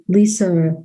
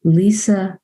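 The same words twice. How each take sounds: First: "Lisa" in the speaker's own New York accent. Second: "Lisa" said carefully without a New York accent; accent corrected. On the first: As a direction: let New York slip into the name "Lisa". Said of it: "trying to get my New York accent". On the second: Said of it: "get my New York accent out of that". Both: Real, not acted.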